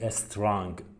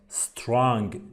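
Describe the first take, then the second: First: An extra vowel comes before the first s. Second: The word starts straight on the s sound. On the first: The speaker calls it wrong. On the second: The speaker calls it right.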